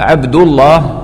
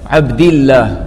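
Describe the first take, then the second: First: The L in Allah is heavy and thick. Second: The L in Allah is light and thin. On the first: "الضمة والفتحة تكون مفخمة اللام" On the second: "إذا كان قبل لفظ الجلالة كسرة"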